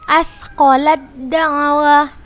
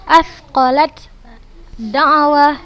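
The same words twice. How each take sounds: First: The t sound is merged into the d. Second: The t sound is pronounced separately before the d. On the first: The speaker calls it right. "Ustazah nggak ada baca huruf ta-nya" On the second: The speaker calls it wrong. "Bukan ustazah baca asqalad da'wah, bukan seperti itu"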